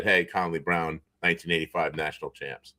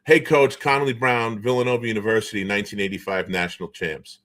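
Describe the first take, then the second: First: Softer, lower mock replay of the proud intro; dry, lowered imitation poking fun at the buddy; mock introduction. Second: Lightly voiced buddy introducing himself like a press release; formal self-introduction. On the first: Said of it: "just said". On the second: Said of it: "Connolly Brown says to him".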